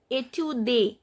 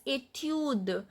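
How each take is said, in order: First: "étude" ending in a spoken "day"; wrong final E sounded. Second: "étude" ending on a released d; silent final E. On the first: Teacher shows what not to say, "étude" as "ay-tyoo-day". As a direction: add a full "ay" after the d of "étude". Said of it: "we are not pronouncing it as". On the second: Teacher gives the correct form, "étude" stopping at the d. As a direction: say "étude" as "ay-tyood", no "ay" after d. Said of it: "We are pronouncing it as". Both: Shown as a demonstration.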